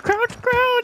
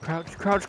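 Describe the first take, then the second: First: High urgent yell, crouch!; urgent shout. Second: Said in the usual way. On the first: Real, not acted. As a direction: shout it at your teammate. Urgent callout in firefight.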